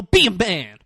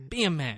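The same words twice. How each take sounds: First: Firm mock scolding. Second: Soft, offhand acted echo; quiet agreement. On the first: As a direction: order him to toughen up. Retold bully scolding the weaker one. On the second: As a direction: agree along under the voice. Retold lawyer agreeing along, quietly.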